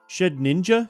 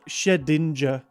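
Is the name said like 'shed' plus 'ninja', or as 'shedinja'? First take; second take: shed ninja; shedinja. First: It sounds like 'shed' followed by 'ninja'. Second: It runs together as one word, 'shedinja'. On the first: "Do I say shed and then ninja?" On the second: "I always call it Shedinja"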